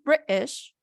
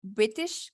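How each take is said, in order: First: British in a posh British accent, higher. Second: British with a clear American T, slow; American accent. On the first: Teacher shows the student the British-accented British. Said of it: "con el acento British sería así". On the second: Teacher shows the student the American British. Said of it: "Con acento americano sería". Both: Shown as a demonstration.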